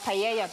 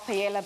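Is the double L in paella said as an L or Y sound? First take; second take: Y sound; L sound. First: The double L is said as a Y sound. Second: The double L is said as an L sound. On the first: The speaker calls it right. "I said paella" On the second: The speaker calls it wrong. "I corrected myself"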